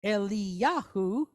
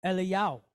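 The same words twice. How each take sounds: First: "Eliyahu" drawn out as e-lee-YA-hoo; full slow pronunciation. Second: "Eliyahu" clipped to e-lee-YOW; shortened Israeli pronunciation. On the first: Teacher giving learners' version, full "Eliyahu". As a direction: slowly voice every syllable of "Eliyahu", rising at the end. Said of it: "and we say". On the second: Teacher showing native usage, "Eliyahu" as Eliyow. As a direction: drop the h so "Eliyahu" ends in yow. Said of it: "his name would be pronounced how". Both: Shown as a demonstration.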